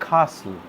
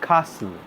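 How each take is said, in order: The two takes are said the same way.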